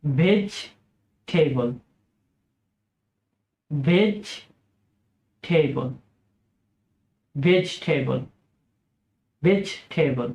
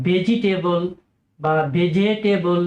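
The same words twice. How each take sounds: First: ভেজিটেবল very slow and lower, three syllables; correct slow pronunciation. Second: ভেজিটেবল said the wrong usual way; common mispronunciation. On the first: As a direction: teach ভেজিটেবল carefully. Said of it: "সঠিক উচ্চারণ হচ্ছে". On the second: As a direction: demo the mistake. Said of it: "ইত্যাদি বলে থাকেন". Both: Shown as a demonstration.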